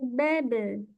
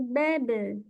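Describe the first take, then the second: First: The echo after b sounds light and thin. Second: The echo after b sounds light and thin.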